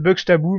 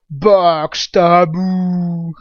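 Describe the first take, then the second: First: The name is pronounced with its usual sounds. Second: The name is pronounced with playfully altered sounds. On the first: It is the real pronunciation. "En vrai, c'est Buxtabou" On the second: It is a joke pronunciation. "c'est plus rigolo de jouer avec la phonétique"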